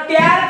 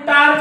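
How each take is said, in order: First: The vowel is short and front, as in cat. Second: The vowel is long and open, as in father. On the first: The speaker calls it wrong. "याला टॅर का म्हणत नाही" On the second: The speaker calls it right. "टार का म्हणतात"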